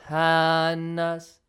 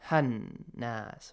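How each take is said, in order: First: The vowel in ha is stretched long. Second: The vowel in ha is short and quick. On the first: The speaker calls it wrong. "Not hannas" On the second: The speaker calls it right.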